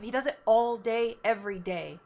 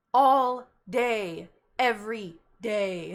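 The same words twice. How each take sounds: First: Said in the usual way. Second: "All day" louder, "every day" slow and weighted; stress on All day. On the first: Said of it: "Do you see what I have to deal with". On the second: Shown as a demonstration.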